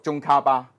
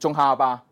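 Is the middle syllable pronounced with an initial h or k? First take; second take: k; h. First: The middle syllable begins with a k sound. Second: The middle syllable begins with an h sound. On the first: The speaker calls it right. "應該讀中卡巴" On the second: The speaker calls it wrong. "我都聽到好多人讀中哈巴"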